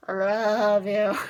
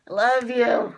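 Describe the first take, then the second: First: Tender confession. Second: Said in the usual way. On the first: Real, not acted. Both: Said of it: "But Jugo".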